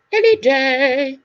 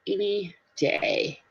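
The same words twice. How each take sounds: First: Higher, drawn-out singsong; stretched, raised repeat; playful echo. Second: Said in the usual way. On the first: Pretend. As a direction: belt it out slowly like a jingle. Playful echo, much louder.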